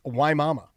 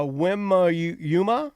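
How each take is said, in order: First: Waimama said as "why mama"; corrected pronunciation. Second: Wimayuma said as "wim-a-YOO-ma", hesitantly; mispronounced place name. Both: Shown as a demonstration. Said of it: "she said it's pronounced Waimama".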